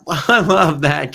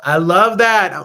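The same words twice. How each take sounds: First: Said through a real laugh, slowly. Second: Louder, higher delighted exclamation. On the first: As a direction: let the laugh carry the words. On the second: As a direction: cheer the idea out loud. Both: Real, not acted. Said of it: "L O L".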